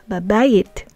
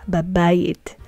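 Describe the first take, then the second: The two takes are said the same way.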